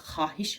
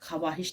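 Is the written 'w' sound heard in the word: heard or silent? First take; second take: silent; heard. First: The written w letter is not pronounced. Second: The written w letter is pronounced aloud. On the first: The speaker calls it right. "ख्वाहिश हम पढ़ते हैं" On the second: The speaker calls it wrong. "ख्वाहिश नहीं पढ़ते"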